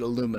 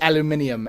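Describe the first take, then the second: First: The word is pronounced the American way. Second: The word is pronounced the British way. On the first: This is the original American name. "discovered by an American who named it aluminum" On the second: This is the later British form. "the British took it and said it's aluminium"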